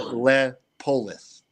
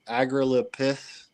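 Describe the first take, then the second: First: The name ends with a 'polis' sound. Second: The name ends with a 'pith' sound. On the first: The speaker calls it right. "It rolls off the tongue after you get it" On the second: The speaker calls it wrong. "it's not pith at the end"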